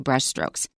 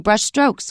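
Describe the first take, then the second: First: The stress falls on the word brush. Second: The stress falls on the word strokes. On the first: The speaker calls it right. "We don't stress strokes. we say" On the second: The speaker calls it wrong. "We don't say"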